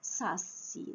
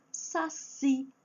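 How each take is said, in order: First: "Saci" as SA-ci, ending soft; wrong stress on first syllable. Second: "saci" as sa-CI, raised in pitch; stress on last syllable. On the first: Teacher shows what nobody says, "Saci" stressed on SA. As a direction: drop the CI of "Saci" away. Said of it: "ninguém fala assim". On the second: Teacher lists examples, "saci" stressed on final CI. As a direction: land high on the CI of "saci". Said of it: "a última sílaba é a forte". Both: Shown as a demonstration.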